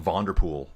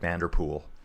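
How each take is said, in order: First: The name is said without a North American vowel. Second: The name is said with a North American vowel. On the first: The speaker calls it right. "I think it's more like Vonderpool" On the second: The speaker calls it wrong. "Sounds very North American"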